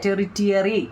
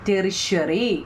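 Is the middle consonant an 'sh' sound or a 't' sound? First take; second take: t; sh. First: The middle consonant is a 't' sound. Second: The middle consonant is an 'sh' sound. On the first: "ടെറിറ്റിയറി എന്ന് പറഞ്ഞാലും ശരിയാ" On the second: "ഷ എന്നവിടെ ഉച്ചരിക്കണം"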